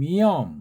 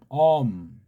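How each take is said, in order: First: The word begins with a y glide. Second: The word begins directly with the vowel. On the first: This is the English-style reading. "영어처럼" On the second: This is the Korean-style reading. "우린"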